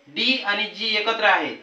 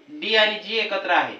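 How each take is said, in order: Both takes have the same delivery.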